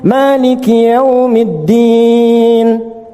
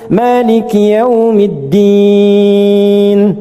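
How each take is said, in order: First: The final vowel is held about two seconds. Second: The final vowel is held about three seconds. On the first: "Anda baca empat" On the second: "Enam harakat"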